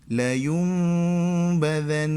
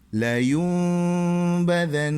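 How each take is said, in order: Both takes have the same delivery.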